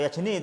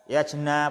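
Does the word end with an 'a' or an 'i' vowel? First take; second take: i; a. First: The word ends with an 'i' vowel. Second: The word ends with an 'a' vowel. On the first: The speaker calls it right. "Ya jeni yang betul" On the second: The speaker calls it wrong. "Tadi ya jena bacanya"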